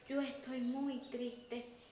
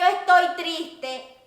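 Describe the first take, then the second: First: It is said in a low, sad tone. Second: It is said in a high, upbeat tone.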